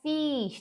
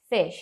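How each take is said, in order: First: The vowel is a spread, smiling 'ee' sound. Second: The vowel is a short, closed 'i' sound. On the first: The speaker calls it wrong. "não é um i sorridente" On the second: The speaker calls it right. "é um izinho fechado"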